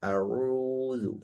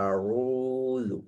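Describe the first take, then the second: The two takes are said the same way.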